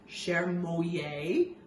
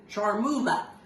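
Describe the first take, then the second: First: It is said with a French-style pronunciation. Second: It is said with an American-style pronunciation. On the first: "the French pronunciation would probably be" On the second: "here in America we probably are going to call it"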